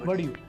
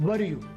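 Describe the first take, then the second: The two takes are said the same way.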